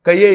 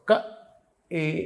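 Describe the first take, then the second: First: A y sound joins the two syllables. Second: The two syllables are said without a y sound. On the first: The speaker calls it wrong. "కయ్యే ఏ లక్ష్మీ అని చదివేశాడు ఒకడు" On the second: The speaker calls it right. "క ఏ ఇక్కడి నుంచి పలకాలి"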